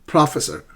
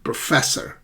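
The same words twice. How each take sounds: First: The stress is on the first syllable. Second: The stress is on the second syllable. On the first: The speaker calls it wrong. "they keep calling me professor" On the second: The speaker calls it right. "the correct pronunciation of this word is professor"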